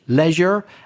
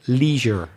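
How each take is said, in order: First: The first vowel has a British sound. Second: The first vowel has an American sound. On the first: "British leisure" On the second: "American leisure"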